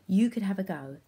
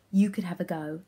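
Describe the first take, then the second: No difference in how they are said.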